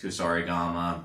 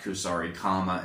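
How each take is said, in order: First: The second part starts with a voiced g sound. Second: The second part starts with a hard k sound. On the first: The speaker calls it right. "it's Kusarigama" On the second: The speaker calls it wrong. "it's not Kusarigama"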